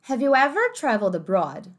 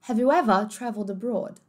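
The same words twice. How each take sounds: First: "ever" with an American r at the end, like "everr"; American accent. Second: "ever" with the final r dropped, like "evuh"; British accent. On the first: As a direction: say "ever" with the r sounded. ("ever" com r americano) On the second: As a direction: say "ever" with no r at the end. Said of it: "Britânico agora". ("ever" sem o r, britânico) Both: Shown as a demonstration.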